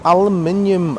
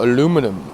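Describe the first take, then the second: First: It is said with a British pronunciation. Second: It is said with a non-British pronunciation.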